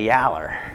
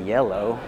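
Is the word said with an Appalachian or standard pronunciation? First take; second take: Appalachian; standard. First: It is said with Appalachian pronunciation. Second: It is said with standard pronunciation.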